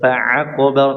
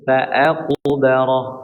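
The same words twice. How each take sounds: First: The throat sound before the vowel is pressed. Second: The throat sound before the vowel is light. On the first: The speaker calls it wrong. "bukan fa'aqbarah" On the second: The speaker calls it right. "hamzah ya, tidak ditekan"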